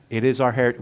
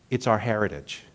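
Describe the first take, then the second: First: "is" leaned on firmly, the rest even; stress on IS. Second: Said in the usual way. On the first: Shown as a demonstration. Minister insisting to the congregation, stressing "is". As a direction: insist with weight on "is".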